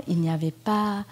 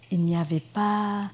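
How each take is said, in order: Both takes have the same delivery.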